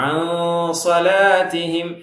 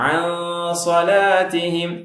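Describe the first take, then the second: Both takes have the same delivery.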